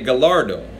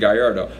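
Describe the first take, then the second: First: The double L is said as an L sound. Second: The double L is said as a Y sound. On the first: "if you didn't know any better, you would say Gallardo" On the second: "the double L's make a Y sound"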